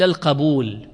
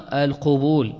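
First: القبول as al-qabūl, short a after q; القبول opened to qa-būl; fatha on qaf. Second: القبول as al-qubūl, u after q; القبول rounded to qu-būl; damma on qaf. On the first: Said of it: "وفعول بفتح الفاء مثل القبول". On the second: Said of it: "الناس يقولون القبول لكن الأفصح". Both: Shown as a demonstration.

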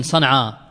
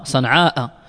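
First: "صنعاء" ending on an open aa, no hamza; poetic shortened form. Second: "صنعاء" with long aa and a sounded final hamza; original long form. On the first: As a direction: leave off the final glottal stop of "صنعاء". ("صنعاء" مقصورة دون همزة) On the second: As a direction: close "صنعاء" with a clear glottal stop. ("صنعاء" بالمد مع نطق الهمزة) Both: Shown as a demonstration. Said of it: "أصلها صنعاء".

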